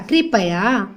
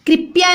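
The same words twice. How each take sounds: First: "कृपया" as kri-pa-ya; full a after p in "कृपया"; lower, three-beat "कृपया"; correct pronunciation. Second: "कृपया" as krip-ya; higher, two-beat "कृपया"; wrong pronunciation. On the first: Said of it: "कृपया नहीं होता". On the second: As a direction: drop the vowel after p in "कृपया". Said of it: "नहीं होता". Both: Shown as a demonstration.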